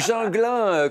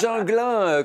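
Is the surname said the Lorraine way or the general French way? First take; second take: general French; general French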